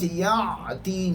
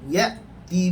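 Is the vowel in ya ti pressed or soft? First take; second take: pressed; soft. First: The vowel is pressed, sounding like ain. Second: The vowel is soft without throat pressure. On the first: The speaker calls it wrong. "jangan baca ya ti nanti jadi huruf ain" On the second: The speaker calls it right. "tidak perlu ditekan"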